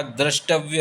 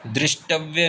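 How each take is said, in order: First: द्रष्टव्य said drashtavya, with a; correct form drashtavya. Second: दृष्टव्य said drishtavya, with i; wrong form drishtavya. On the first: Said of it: "द्रष्टव्य होता है". (सही उच्चारण: द्रष्टव्य में 'र') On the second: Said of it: "दृष्टव्य नहीं होता". (गलत उच्चारण: दृष्टव्य में 'रि') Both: Shown as a demonstration.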